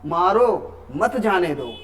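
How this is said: There is a pause after 'मारो'.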